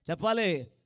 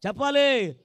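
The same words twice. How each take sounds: First: Said in the usual way. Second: Loud demand. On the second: Real, not acted. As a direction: repeat it louder, pressing the crowd. (గట్టిగా అడగడం)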